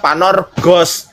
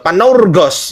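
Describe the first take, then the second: First: The second syllable has a single plain vowel. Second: The second syllable glides through two vowel sounds. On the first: The word is read as if the U were absent. "Kalau U-nya nggak ada, jadinya panorgos" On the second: Both vowels written side by side are read. "dua huruf vokal secara berdampingan... Jadi bacanya panaur"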